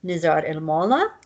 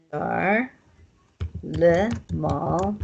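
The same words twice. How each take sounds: First: Nazar el Mala, with el and a final a on Mala; spoken form. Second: Nazar le mall read as written, le said fully; written form. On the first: Teacher giving learners the real spoken sentence. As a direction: say it the natural Kurdish way. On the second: Teacher reading the book form of the example. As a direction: read the phrase letter by letter. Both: Shown as a demonstration. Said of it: "it's gonna sound like".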